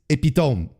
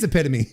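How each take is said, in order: First: The word is pronounced the French way. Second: The word is pronounced the English way. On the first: The speaker calls it wrong. "in French, epitome is epitome" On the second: The speaker calls it right. "no, it is epitome"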